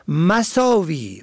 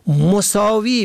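First: مساوی said as masavi, a first; fatha on first letter. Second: مساوی said as mosavi, o first; damma on first letter. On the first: Teacher contrasting homographs, masavi with fatha. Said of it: "به فتح اول". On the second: Teacher contrasting homographs, mosavi with damma. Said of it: "به ضم اول". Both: Shown as a demonstration.

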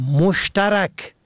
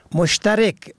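First: مشترک said "moshtarak"; فتحه on fourth letter. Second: مشترک said "moshtarek"; کسره on fourth letter. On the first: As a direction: end مشترک in -rak with short a. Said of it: "به فتح چهارم". (مشترک با فتحهٔ ر: مُشتَرَک) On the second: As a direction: end مشترک in -rek with short e. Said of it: "به کسر چهارم یعنی کسر ر". (مشترک با کسرهٔ ر: مُشتَرِک) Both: Shown as a demonstration.

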